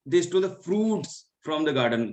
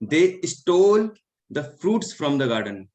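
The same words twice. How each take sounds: First: The word fruits carries the stress. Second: The word stole carries the stress. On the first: "तो उन्होंने fruits को चुराया है" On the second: "यहाँ पे स्टोल है"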